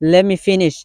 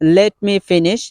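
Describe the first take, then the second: First: 'Let me' is blended into one short word. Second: 'Let me' is said as two full words. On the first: "native স্পিকাররা অধিকাংশ সময় তারা বলে থাকে লেমি finish" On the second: "completely বলতে চান এইভাবে বলতে পারেন"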